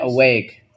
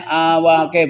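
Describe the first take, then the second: First: "awake" as uh-wake, schwa first; correct English reading. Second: "awake" sounded out as ah-wah-keh; read as spelled. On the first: Teacher giving the class the reading, "awake" as uh-wake. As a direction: say "awake" in two syllables, silent final e. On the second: Teacher showing the class the spelling, "awake" as ah-wah-keh. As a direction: say "awake" as written, every vowel voiced. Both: Shown as a demonstration.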